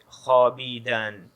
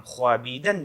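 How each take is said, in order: First: خوابیدن with a silent waw, khaabidan; correct pronunciation. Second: خوابیدن with the waw sounded, khwaabidan; wrong pronunciation. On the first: Teacher showing students the right way, silent w. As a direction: say خوابیدن as khaa-bi-dan, no w sound. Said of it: "بلکہ بولیں گے". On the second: Teacher showing students the wrong way, pronouncing the w. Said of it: "اس کو ہم خوابیدن نہیں بولیں گے". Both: Shown as a demonstration.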